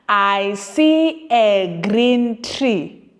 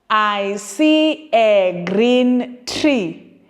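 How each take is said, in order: The two takes are said the same way.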